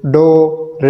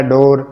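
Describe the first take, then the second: First: "डोर" drawn out as डो, pause, र; syllable by syllable. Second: Said in the usual way. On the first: Shown as a demonstration. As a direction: stretch "डोर" and release the र separately. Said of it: "ये वो तरीका है". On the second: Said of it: "इसके बाद next हमारा है".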